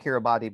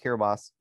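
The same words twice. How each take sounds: First: "Kiribati" said as spelled, ending in "bah-tee"; spelling pronunciation. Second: "Kiribati" said as "Kiri-bahs"; local pronunciation. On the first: Explaining the misleading spelling to a co-host, "Kiribati" ending in "tee". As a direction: sound out the final "tee" in "Kiribati". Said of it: "looks like it should be spelled". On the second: Correcting the spelling for a co-host, "Kiribati" ending in "bahs". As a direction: end "Kiribati" on an S sound, no "tee". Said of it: "but it's pronounced Kiribati". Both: Shown as a demonstration.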